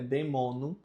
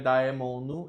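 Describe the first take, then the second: First: The first vowel is said as plain e. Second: The first vowel is said as a-e. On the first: The speaker calls it right. "é demonum" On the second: The speaker calls it wrong. "não é daemono"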